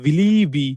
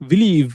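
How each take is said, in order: First: The word ends with an extra ee vowel. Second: The word ends on the v consonant sound. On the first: The speaker calls it wrong. "আমরা বলছি না বিলিভি" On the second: The speaker calls it right. "আমরা normally বিলিভ বলি"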